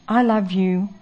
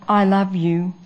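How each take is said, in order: No difference in how they are said.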